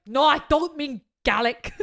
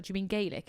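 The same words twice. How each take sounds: First: Louder, slower Scottish voice, Gaelic as GAL-ick; mock Scottish correction. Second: Gaelic said the Irish way, GAY-lick. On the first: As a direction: correct her indignantly like a Scot. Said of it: "And he was like". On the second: Retold or imitated. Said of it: "I was like".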